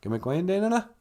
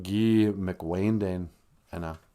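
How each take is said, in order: First: "Gimmick Wayne Dane Enna" run together as one quick question; "Gimmick Wayne Dane Enna" in one connected flow; smushed together. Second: "Guy McWayne Dane Enna" slowly, in separate pieces; slow teaching breakdown of "Guy McWayne Dane Enna"; word by word. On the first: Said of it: "just smush it together and say". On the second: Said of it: "Or you can just smush it together". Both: Shown as a demonstration.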